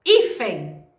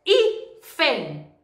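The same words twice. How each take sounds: First: Said in the usual way. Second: "Hífen" in two separate beats, Hí, then fen; split into syllables. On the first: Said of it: "Paroxítona eu vou na palavra". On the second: Shown as a demonstration. Teacher showing the tonic syllable, "Hífen" split syllable by syllable. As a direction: break "Hífen" after the stressed Hí, pause, then fen. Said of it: "I é a sílaba tônica".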